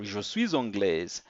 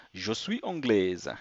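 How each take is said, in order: First: "suis" linked to "anglaise" with a z sound; with liaison. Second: "suis" kept apart from "anglaise", final s silent; no liaison. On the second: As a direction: say "je suis anglaise" with no z sound linking "suis" to "anglaise". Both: Shown as a demonstration. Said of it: "or je suis anglaise".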